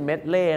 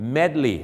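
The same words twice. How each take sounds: First: The word ends with an 'ay' vowel sound. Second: The word ends with an 'ee' vowel sound. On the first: The speaker calls it wrong. "ไม่ใช่" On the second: The speaker calls it right. "ต้องเป็น"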